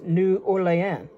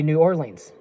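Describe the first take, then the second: First: Orleans is pronounced the French way. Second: Orleans is pronounced the English way. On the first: The speaker calls it right. "but actually it's New Orleans because it's French" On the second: The speaker calls it wrong. "A lot of people here here say uh, they say New Orleans"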